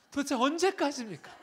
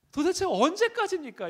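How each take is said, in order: First: Higher, louder pleading complaint; a worn-out believer demanding an answer; exasperated cry. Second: Much higher and louder desperate cry; the same plea pushed to a desperate yell; anguished shout. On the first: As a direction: cry out how long in frustration. Preacher voices exasperated complaint. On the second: Repeats complaint louder. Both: Retold or imitated.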